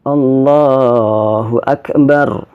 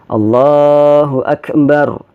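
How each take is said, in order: Both takes have the same delivery.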